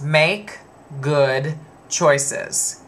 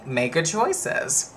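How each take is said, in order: First: "make" rising, then a pause, then "good choices" leaned on; corrected catchphrase. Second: Slow, deliberate make good choices; slow catchphrase. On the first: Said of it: "they never get it right. It is". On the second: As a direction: spell out "Make good choices" word by word, slowly. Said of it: "where I got the saying". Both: Shown as a demonstration.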